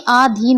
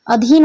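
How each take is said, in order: First: आधीन opening on a long aa; wrong long vowel. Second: Said in the usual way. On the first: Shown as a demonstration. Teacher warns students of the error, आधीन with long first aa. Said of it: "ना कि आधीन होता है". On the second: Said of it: "अधीन होता है".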